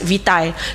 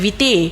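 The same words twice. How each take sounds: First: The word is given a British English pronunciation. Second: The word is given a Spanish pronunciation. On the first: "British English, we call it as vitae" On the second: "bahasa Spain dia orang panggil sebagai vitae"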